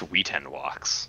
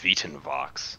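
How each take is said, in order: First: The name is said with non-Church Latin pronunciation. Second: The name is said with Church Latin pronunciation. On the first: "but it's" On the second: "If it's Church Latin, it's"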